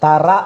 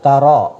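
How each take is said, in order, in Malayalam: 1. രണ്ടാമത്തെ അക്ഷരം സാധാരണ 'a' യിലാണ് അവസാനിക്കുന്നത്. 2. രണ്ടാമത്തെ അക്ഷരം 'aw' ഗ്ലൈഡോടെയാണ് അവസാനിക്കുന്നത്. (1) "തറ അല്ല" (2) "റോ എന്നാണ് പറയേണ്ടത്"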